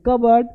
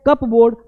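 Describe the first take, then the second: First: कबर्ड as "KUB-erd"; correct pronunciation. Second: कपबोर्ड as "CUP-BOARD"; spelling pronunciation. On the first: Teacher recaps how to read it, corrected. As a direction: drop the P in कबर्ड. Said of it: "पढ़ेंगे". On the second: Teacher recaps how it is written, read literally. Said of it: "लिखते हैं". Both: Shown as a demonstration.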